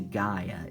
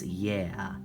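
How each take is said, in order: First: It is said the English way, like 'guy-uh'. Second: It is said the Greek way, like 'yeah'. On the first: "I don't say Gaia" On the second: "That's how the Greeks pronounce it"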